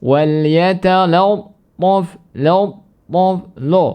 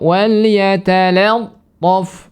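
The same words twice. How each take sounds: First: "yatalattaf" chanted slow and high, "la" turned toward "lo"; lam wrongly thickened. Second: "yatalattaf" chanted slow and high with a light "la"; thin lam. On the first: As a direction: thicken the lam in "lattaf" into a rounded "lo". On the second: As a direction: draw out "yatalattaf", lam kept thin before the heavy t. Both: Shown as a demonstration. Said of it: "Jangan dibaca dengan".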